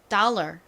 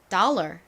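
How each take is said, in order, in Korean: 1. 미국식 발음이에요, 끝에 R 소리가 있어요. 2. 미국식 발음이에요, 끝에 R 소리가 있어요.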